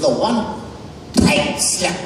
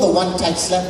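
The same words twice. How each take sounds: First: The word tight is clenched, then forcefully released. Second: The word tight is said plainly, without tension. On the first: "the true pronunciation is the one tight slap. The word tight has to be clenched in the mouth and released" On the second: "it's called the one tight slap"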